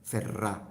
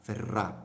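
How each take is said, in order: No difference in how they are said.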